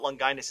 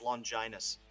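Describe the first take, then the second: First: The g is not said like a j. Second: The g sounds like j, with a long i. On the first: The speaker calls it wrong. "It's not Longinus" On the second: The speaker calls it right. "Like J like jam, I like tide"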